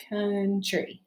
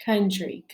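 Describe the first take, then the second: First: "country" split into two drawn-out beats; teacher breaking "country" into syllables. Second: Said in the usual way. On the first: Shown as a demonstration. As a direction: sound out "country" as coun, then tree. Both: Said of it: "see how many syllables are in country".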